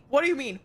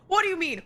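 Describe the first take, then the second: First: Said in the usual way. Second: Shouted. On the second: Real, not acted. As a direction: yell it out in protest. Repeats phrase, calming down.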